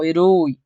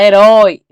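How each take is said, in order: First: The last syllable has a closed vowel. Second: The last syllable has an open vowel. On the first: The speaker calls it wrong. "não herói" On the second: The speaker calls it right. "Você fala herói"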